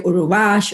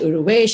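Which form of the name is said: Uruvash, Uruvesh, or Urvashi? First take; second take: Uruvash; Uruvesh. First: The name has an extra middle vowel and ends 'ash'. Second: The name has an extra middle vowel and ends 'esh'. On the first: "They would say Uruvash" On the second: "Uruvesh, and I hated it because Urvesh is a boy's name"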